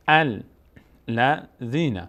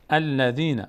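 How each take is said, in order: First: الذین broken slowly into al, la, dhīna; syllable by syllable. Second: Said in the usual way. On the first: Shown as a demonstration. Teacher teaching the word, slow syllable-by-syllable reading. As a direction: sound out الذین with clear gaps between syllables.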